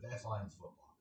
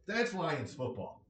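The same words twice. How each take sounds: First: "That's Lions football" repeated softer and lower, trailing off; quiet repeat. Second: "that's Lions football" said slow and punched; emphatic stress. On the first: Repeating his view of the Lions, softly resigned. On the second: Summing up his view of the Lions, slow and emphatic. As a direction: lean hard on "that's Lions football", slowly. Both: Real, not acted. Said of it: "That's the way I view it".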